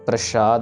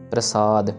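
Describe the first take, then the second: First: The middle consonant is a sh sound. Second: The middle consonant is a plain s sound. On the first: The speaker calls it wrong. "शलगम वाला श नहीं आएगा" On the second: The speaker calls it right. "नॉर्मल प्लेन स आएगा यहाँ पे"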